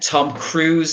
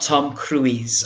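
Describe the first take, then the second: First: Cruise has a single long oo vowel. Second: Cruise has two separate vowel sounds. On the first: The speaker calls it right. "Tom Cruise, not Tom Cruise" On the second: The speaker calls it wrong.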